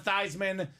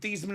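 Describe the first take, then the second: First: The name rhymes with Heisman. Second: The name does not rhyme with Heisman. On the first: This pronunciation was adopted for a Heisman campaign. "to Theismann" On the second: This is the family's original pronunciation. "change his name from Theismann"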